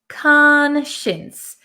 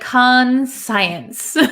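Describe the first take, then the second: First: The middle part sounds like 'shins'. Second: The middle part sounds like 'science'. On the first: The speaker calls it right. "We pronounce it conscience" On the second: The speaker calls it wrong. "It looks like"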